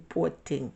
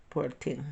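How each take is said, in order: Both takes have the same delivery.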